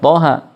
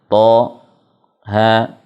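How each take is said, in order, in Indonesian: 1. Huruf-hurufnya menyambung tanpa jeda sama sekali. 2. Ada jeda singkat yang memisahkan setiap huruf. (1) "tidak dibaca langsung" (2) "bacanya begitu, ya, tidak dibaca langsung, tapi ada saktah setiap hurufnya"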